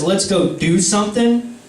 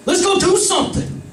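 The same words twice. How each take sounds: First: Said in the usual way. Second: Put-on high, excited drunk suggestion; drunk buddy. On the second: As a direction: pitch it up like a tipsy friend with an idea. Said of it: "and we're like".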